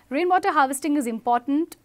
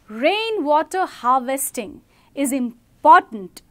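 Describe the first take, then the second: First: It is said flatly without stressing any words. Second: It is said with strong stress on key words. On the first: The speaker calls it wrong. "this is how I'm saying without emphasizing" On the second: The speaker calls it right. "I'm emphasizing in the entire sentence three words"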